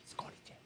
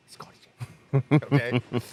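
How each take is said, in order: First: Hushed voiceless aside; whispered gossip. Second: Much louder and slow, sing it out; drawn-out jeer. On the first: Onlookers murmur about the handcuffed man in a whisper. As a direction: whisper it to a friend. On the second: Onlookers jeer at the handcuffed man, loud and drawn out. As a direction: taunt him from across the lot. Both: Retold or imitated.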